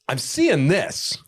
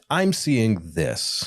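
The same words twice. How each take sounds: First: It is said loudly in a harsh tone. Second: It is said softly in a gentle tone. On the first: The feedback comes across as aggressive. The speaker calls it wrong. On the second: The feedback is kind and clear. The speaker calls it right. "volume and tone"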